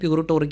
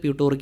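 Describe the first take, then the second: First: The name is said with an extra 'ri' syllable. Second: The name is said without the extra 'ri' syllable. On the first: This is the usual way it is said. "Pronounce ചെയ്യുമ്പോഴും പ്യൂറിട്ടോറിക്ക എന്ന് തന്നെയാണ് പറയുക" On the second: Only some people say it this way. "ചിലർ പ്യൂട്ടോറിക്ക എന്ന് പ്രതിപാദിക്കുന്നത്"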